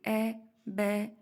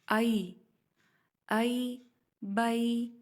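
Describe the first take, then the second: First: The vowel is a pure e sound. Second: The vowel glides from a to y. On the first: The speaker calls it wrong. "ए करके इसको बोला जाता है" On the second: The speaker calls it right. "या वाज़ेह और प्रोमिनेंट हो"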